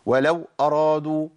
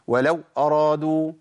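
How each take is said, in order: The two takes are said the same way.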